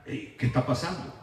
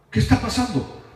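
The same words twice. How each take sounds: First: Very low, soft, tentative asking; hushed question. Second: Said in the usual way. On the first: Acted. Paul and Barnabas asking what is going on, hushed question. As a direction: ask it under your breath. Acted puzzled question by the apostles.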